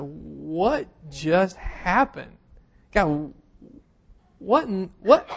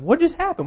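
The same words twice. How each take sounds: First: Slow, dazed, stunned whisper-like question; like the rug was just pulled out from under you; stunned disbelief. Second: Much higher, stunned outcry; incredulous exclaim. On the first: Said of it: "we just looked at each other and was like". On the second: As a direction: shoot up in pitch, baffled. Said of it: "I don't even know how to ask the question". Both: Retold or imitated.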